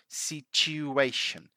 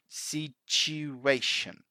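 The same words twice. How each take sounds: No difference in how they are said.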